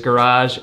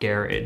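First: It is said with an American accent. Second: It is said with a British accent.

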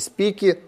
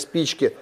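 First: The middle ch sound is dropped. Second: The middle ch sound is clearly pronounced. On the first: The speaker calls it wrong. "и спики" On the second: The speaker calls it right. "а не спички"

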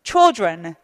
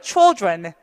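No difference in how they are said.

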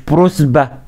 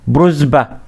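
Both takes have the same delivery.

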